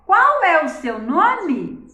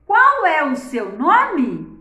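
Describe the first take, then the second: First: Louder, higher "Qual é o seu nome?", "Qual" stressed; question tune. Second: Loud, slow "Qual é o seu nome?" with "Qual" stressed; question tune. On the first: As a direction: ask it again, hitting "Qual" hard. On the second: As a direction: ask "Qual é o seu nome?" clearly, punching "Qual". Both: Shown as a demonstration. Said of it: "pela minha entonação".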